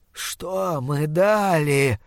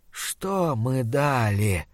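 First: Slow, pressing creature voice; slow monster voice. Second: Slow, hushed, rotting monster voice. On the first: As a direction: drag the question out menacingly. Monster repeats demand. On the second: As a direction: drag each word like a dying beast. Monster demands answer. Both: Acted.

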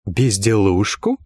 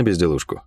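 First: "Безделушку?" drawn out slowly as an affronted question; indignant, slow questioning repeat of "Безделушку?"; indignant echo. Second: Said in the usual way. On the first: A narrator's reading. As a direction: stretch "Безделушку?" slowly, rising in disbelief. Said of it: "возмутилась Лайен".

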